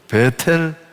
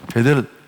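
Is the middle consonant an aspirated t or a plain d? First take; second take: aspirated t; plain d. First: The middle consonant is an aspirated t. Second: The middle consonant is a plain d. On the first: "베텔이라고 말하지만" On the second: "원래 발음을 하면 베델이래요"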